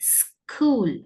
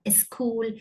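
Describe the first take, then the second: First: The word starts directly with the s sound. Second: An extra vowel is added before the s sound. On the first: The speaker calls it right. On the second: The speaker calls it wrong.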